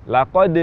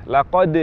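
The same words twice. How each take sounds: Both takes have the same delivery.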